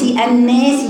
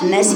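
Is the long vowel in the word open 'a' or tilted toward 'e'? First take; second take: tilted; open. First: The long vowel leans toward an e sound. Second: The long vowel is a fully open a sound. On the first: This belongs to a different recitation tradition. The speaker calls it wrong. "الناس بإمالة، دي قراءة لغير حفظ" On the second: This is the recitation being taught. The speaker calls it right. "إحنا بنقرأ الناس مفتوحة"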